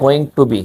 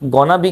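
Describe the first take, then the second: First: Each word is said fully and separately. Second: The words are blended into a short form. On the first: "गोना बी क्या है? गोइंग टू बी।" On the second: "इसने short करके बोला"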